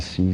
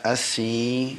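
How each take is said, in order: First: The voice sounds bass-heavy and muffled. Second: The voice sounds treble-heavy and thin. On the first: "se eu quero deixar o, o som mais grave" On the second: "se fica bem agudo, aí fica assim, mais agudinho"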